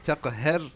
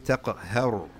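First: "taqahhar" with a thin, light ra; wrong pronunciation. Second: "Taqahhar" with a full, heavy r; correct heavy ra. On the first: Teacher repeating the mistake to avoid, thin ra. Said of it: "Not taqahhar". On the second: Teacher giving students the right form, heavy ra. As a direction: say "Taqahhar" with the final ra thickened. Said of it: "This ra is mufakham". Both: Shown as a demonstration.

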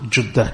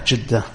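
First: "judda" with a short u; dhamma pronunciation. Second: "jidda" with a short i; kasra pronunciation. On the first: Lecturer sums up the variants, "judda" said with a u. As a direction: say "judda" as JUD-da. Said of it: "pronounce them with a dhamma". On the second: Lecturer sums up the variants, "jidda" said with an i. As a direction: say "jidda" as JID-da. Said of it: "or the kasra". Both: Shown as a demonstration.

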